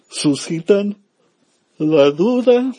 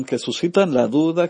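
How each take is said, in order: First: Words squeak up high and loud as the voice cracks; a sudden high crack on suscitan la duda. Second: Said in the usual way. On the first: Real, not acted. Priest's voice cracks mid-sermon to his listeners, high and squeaky. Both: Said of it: "perdón".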